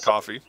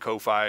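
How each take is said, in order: First: The name is said like 'coffee'. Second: The name is said like 'koh-fee'. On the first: This is the real name. The speaker calls it right. "It is Coffee" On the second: This is how some people say it. The speaker calls it wrong. "some people call it Ko-fi"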